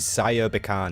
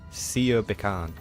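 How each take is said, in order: First: The first part is said as 'Saya'. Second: The first part is said as 'Sia'. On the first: The speaker calls it wrong. "I've been saying Saya Bakan this entire time" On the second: The speaker calls it right. "apparently it's pronounced Sia"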